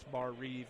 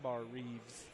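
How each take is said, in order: First: The name ends without an s sound. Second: The name ends with an s sound. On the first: The speaker calls it right. "it's Bar Reeve" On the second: The speaker calls it wrong. "not Bar Reeves"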